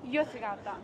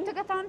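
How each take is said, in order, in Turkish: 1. Kelime bir Y sesiyle başlar. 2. Kelime sert bir G sesiyle başlar. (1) "G'ler Y diye okunuyor" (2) "değil aslında"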